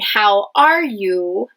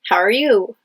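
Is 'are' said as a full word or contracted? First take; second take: full; contracted. First: Each word is said fully and separately. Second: 'How are' is blended into one short syllable. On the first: "instead of hearing" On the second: "You hear"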